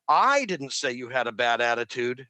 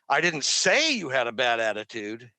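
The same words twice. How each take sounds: First: The stress falls on the word didn't. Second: The stress falls on the word you. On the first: "Now it's didn't"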